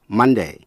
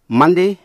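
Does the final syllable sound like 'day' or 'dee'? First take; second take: day; dee. First: The last syllable has an ay vowel. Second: The last syllable has an ee vowel.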